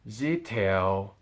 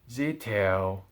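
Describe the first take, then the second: Both takes have the same delivery.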